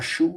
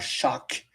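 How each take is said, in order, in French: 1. Le nom se termine par une voyelle, comme dans 'shoo'. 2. Le nom se termine par un son k, comme dans 'shock'. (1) "il était anciennement Chou" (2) "il est maintenant Shock"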